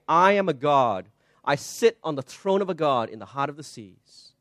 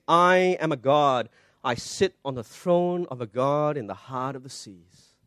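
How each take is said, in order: First: Plain; plain proud quote. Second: Hushed, slow, self-exalting king of Tyre; slow, soft proud king. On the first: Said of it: "drives them to say". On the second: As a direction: let the boast sink low and slow, softer. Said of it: "And he says". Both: Retold or imitated.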